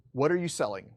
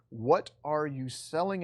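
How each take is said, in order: First: Said in the usual way. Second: Slow, deliberate repeat of the question; slow rhetorical repeat. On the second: Shown as a demonstration. Teacher repeating key question to students, slow and deliberate. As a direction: draw the question out to make them think.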